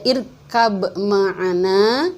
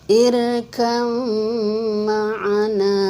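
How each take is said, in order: First: The b sound is pronounced before the m. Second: The b sound is merged into the m. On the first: The speaker calls it wrong. "Jadi tidak dibaca irkab ma'ana" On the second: The speaker calls it right. "tapi dibacanya irkam ma'ana"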